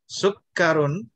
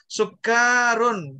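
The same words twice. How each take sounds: First: All the vowels in the word are short. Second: A vowel in the word is held long. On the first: It means sugar. The speaker calls it right. "Semuanya pendek. Jadi kita baca ya pendek" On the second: The meaning can change toward drunkenness. The speaker calls it wrong. "Jadi jangan dibaca misalnya sukkarun, itu nanti bisa beda maknanya"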